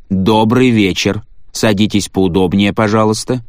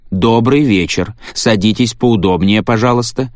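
First: Skipping record. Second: The same line, mechanically repeated; skipping record. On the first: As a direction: repeat it like a broken machine. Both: A narrator's reading. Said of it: "заезженную пластинку".

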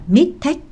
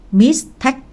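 First: "mistake" said as "mit-tek", losing its s; wrong pronunciation. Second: "mistake" with the second syllable stressed, pitched high; correct word stress. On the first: Tutor shows his student the faulty "mistake", said "mit-tek". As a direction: mimic the learner's faulty "mistake" as two short syllables, "mit-tek". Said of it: "không phải là mistake". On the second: Tutor models the word for his student, "mistake" stressed on "take". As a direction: model "mistake" clearly, s sounded and weight on "take". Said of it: "Nghe tôi đọc này". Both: Shown as a demonstration.

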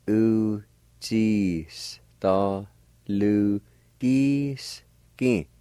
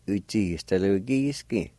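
First: Uchistalugiski stretched very slowly, syllable by syllable. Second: Said in the usual way. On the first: Shown as a demonstration. Teacher demonstrating Uchistalugiski for learners, very slow and broken up. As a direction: draw out each syllable of Uchistalugiski separately. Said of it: "pronounce them out kinda slow". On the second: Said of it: "Gradually speed up your pronunciation".

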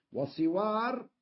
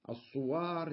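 First: وصوار بكسر الصاد: صِوار; قل وصوار بصاد مكسورة، صِوار; صوار بكسر الصاد. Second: الصوار بضم الصاد: الصُّوار; قل الصوار بصاد مضمومة، الصُّوار; صوار بضم الصاد. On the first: (انطق وصوار بكسر الصاد: صِوار) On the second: (انطق الصوار بضم الصاد: الصُّوار) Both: Shown as a demonstration. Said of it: "الصوار بكسر الصاد وضمها".

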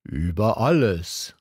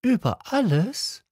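First: Calm, certain royal voice; king answering with clarity; king, with great clarity. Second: Put-on much higher, rising child question; little prince echoing the king in amazement; astonished little prince. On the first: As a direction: state it as plain fact. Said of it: "mit großer Klarheit". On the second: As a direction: disbelief at the answer. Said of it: "little prince astonished". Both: A narrator's reading.

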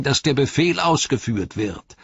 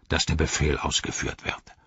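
First: High-pitched orc voice; defiant high orc reply; Grishnach. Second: Lower-voiced orc commander; low, dismissive echo of a rival; Ugluk. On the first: Acted. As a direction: insist on it in a high voice. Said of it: "antwortete Grishnach". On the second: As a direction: throw the words back with authority. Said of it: "sagte Ugluk".

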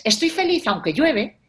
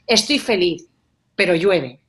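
First: "Estoy feliz" raised high and drawn out; slowly highlight "Estoy feliz", let "aunque llueve" follow; weight the first half, "Estoy feliz"; stress on estoy feliz. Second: "pero llueve" pushed louder after a pause; weight the second half from "pero"; pause, then lean hard on "pero llueve"; stress on pero. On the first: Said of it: "el énfasis está en "estoy feliz". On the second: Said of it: "el énfasis lo estás poniendo en el pero". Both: Shown as a demonstration.

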